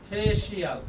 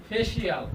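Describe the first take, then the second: The two takes are said the same way.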